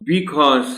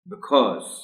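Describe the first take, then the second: First: The first vowel is drawn out and full. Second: The first vowel is very short and reduced. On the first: The speaker calls it wrong. "बिकॉज नहीं कहना देना बच्चों को" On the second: The speaker calls it right. "बड़ी बड़ी मुख्तसर सी आवाज है शुरू में"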